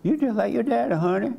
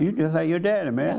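First: Much higher, sweetly teasing wife; playful endearment. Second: Offhand demo remark, a little higher; casual remark. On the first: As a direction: tease a spouse in a high, affectionate lilt. Repeats the remark as a wife. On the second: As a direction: toss it out man to man, casually. Models a remark to a husband. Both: Shown as a demonstration.

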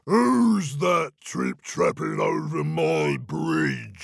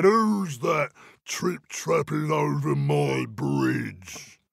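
First: Booming troll voice. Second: Slow, looming troll demand. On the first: Troll challenging the goat below, slow booming voice. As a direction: make the bridge shake with it, slowly. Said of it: "a great booming voice". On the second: Troll peering down at little goat, slow looming demand. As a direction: lean over him and drag out every word. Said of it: "peered down ... and said". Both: Acted.

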